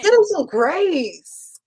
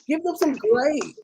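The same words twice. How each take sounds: First: It is said louder, standing up. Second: It is said at normal volume.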